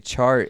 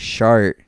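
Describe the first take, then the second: First: The word begins with a 'ch' sound. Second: The word begins with an 'sh' sound. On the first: "when they say chart" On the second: "they get the C H and the S H always backwards"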